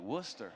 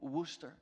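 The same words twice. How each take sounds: First: It is said in a tough gangster voice. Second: It is said in a plain, tentative voice.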